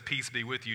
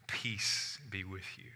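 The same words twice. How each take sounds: First: Said in the usual way. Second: Calm blessing. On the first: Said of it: "trying to just calm down a mob". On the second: Acted. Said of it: "And he said to them".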